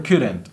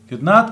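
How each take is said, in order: First: It is said as one contracted word. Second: It is said as two full words. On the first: The speaker sounds less formal. "la forma eh, contraída, lo que estoy haciendo es sonando un poco menos formal" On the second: The speaker sounds more formal. "Si uso la forma larga, estoy siendo más formal"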